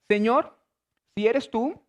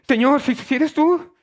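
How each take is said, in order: First: It is read in a calm, even voice. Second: It is said in a startled, frightened, halting voice. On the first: "yo lo estoy leyendo porque estoy leyendo así" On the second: "era esa actitud"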